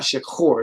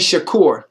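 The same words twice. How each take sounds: First: The middle consonant is a throaty kh sound. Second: The middle consonant is a hard k sound. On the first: The speaker calls it wrong. "not shakur, not a chet" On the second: The speaker calls it right. "it's a kaf"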